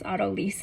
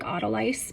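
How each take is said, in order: First: The word is said unlike its spelling. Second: The word is said the way it looks. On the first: The speaker calls it right. "is how you pronounce it" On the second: The speaker calls it wrong. "It looks like autolyse"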